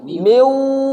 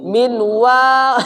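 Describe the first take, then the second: First: The n merges straight into the w sound. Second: A clear n is heard before the w. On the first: The speaker calls it right. "berarti langsung kayak begini. Miu, ah, begitu" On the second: The speaker calls it wrong. "Tidak boleh lagi, tidak boleh lagi begini"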